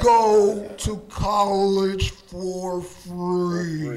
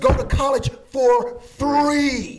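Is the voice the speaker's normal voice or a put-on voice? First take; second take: put-on; normal. First: It is said in a put-on dramatic voice. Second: It is said in the speaker's normal voice.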